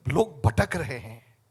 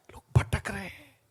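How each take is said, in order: First: Said in the usual way. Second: Hushed, sad repeat; whispered. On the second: Real, not acted. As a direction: drop to a whisper on लोग भटक रहे हैं. (फुसफुसाकर दोहराना)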